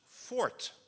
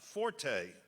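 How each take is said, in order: First: The final E is silent, one syllable. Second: The final E is pronounced, two syllables. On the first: The speaker calls it right. "strictly speaking, should be pronounced fort" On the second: The speaker calls it wrong. "not forte ... it would require an accent aigu over the final E"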